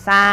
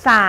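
Both takes have the same delivery.

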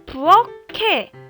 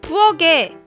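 First: The last consonant is an aspirated k. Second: The last consonant is a plain g. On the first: The speaker calls it right. "맞습니다" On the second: The speaker calls it wrong. "아니죠"

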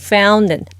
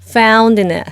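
First: The d in found is very weak. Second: The d in found is strong. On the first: The speaker calls it right. "D 발음이 아주 약해져야 돼요" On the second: The speaker calls it wrong. "Found in이 아니죠"

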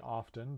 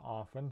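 First: The word is said with a T sound. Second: The word is said without a T sound. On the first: "Some people say often, but other people say it without the T" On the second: "T is a silent letter in some English words"

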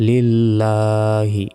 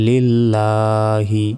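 The two takes are said the same way.

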